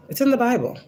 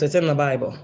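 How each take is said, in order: First: Much higher, insistent repeat; emphatic repeat. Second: Said in the usual way. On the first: Real, not acted. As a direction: push it up high to drive it home. Insisting, says it twice.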